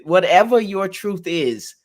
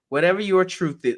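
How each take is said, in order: First: Whatever your truth is, slow, with your leaned on; stress on your. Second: Said in the usual way. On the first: Shown as a demonstration. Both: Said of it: "not ever, not the truth".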